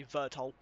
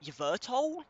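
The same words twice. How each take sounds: First: "Vertol" starting straight on the V, as a statement; plain falling "Vertol" with the Y left off; silent Y. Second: "Yvertol" with the Y sounded, pitched up as a question; hesitant "Yvertol", voice rising high at the end; unsure pronunciation. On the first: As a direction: settle on "Vertol", no Y sounded. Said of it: "say it's a silent Y". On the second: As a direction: try out "Yvertol", Y pronounced, questioning. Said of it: "I don't know how to pronounce that". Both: Real, not acted.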